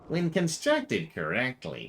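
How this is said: It is said in a put-on accent. The speaker calls it wrong. "maybe that's the wrong accent for her"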